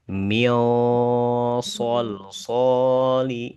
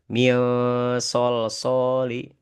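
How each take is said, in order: First: The s sound is heavy and thick. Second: The s sound is light and thin. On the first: The speaker calls it right. "bacaannya ditebalkan" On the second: The speaker calls it wrong. "tidak boleh baca"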